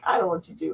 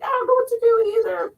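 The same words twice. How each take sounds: First: Said in the usual way. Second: Much higher, fast whiny voice; squeaky voice. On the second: Retold or imitated. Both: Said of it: "And you're like".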